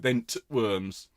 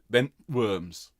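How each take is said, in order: First: A separate t sound is clearly pronounced. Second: The t sound is swallowed and barely heard. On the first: The speaker calls it wrong. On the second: The speaker calls it right.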